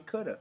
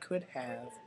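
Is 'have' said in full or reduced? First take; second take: reduced; full. First: 'Have' is shortened and reduced. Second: 'Have' is said in full. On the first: "relaxed pronunciation, which is shortening things like could have to could have" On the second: "shortening things like could have"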